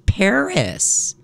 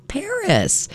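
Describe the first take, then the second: First: Said in the usual way. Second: "Paris" jumps way up into a squeak; squeaky high Paris. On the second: Shown as a demonstration. DJ marvels at the fair's location, high squeak.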